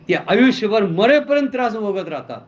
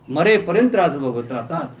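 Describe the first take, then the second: First: Said in the usual way. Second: मरेपर्यंत said lower and weighty; low emphatic repeat. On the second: Shown as a demonstration. Preacher to congregation, repeating the warning low and grave. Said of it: "repeat for emphasis".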